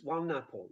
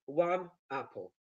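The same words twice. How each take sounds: First: "one apple" run together as "wa-napple"; "one apple" said as one word, lower and quicker; fast linked speech. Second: "one apple" as two separate stressed words. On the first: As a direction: link the n of "one" onto "apple". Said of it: "When you say it fast". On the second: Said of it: "when you stress two words". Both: Shown as a demonstration.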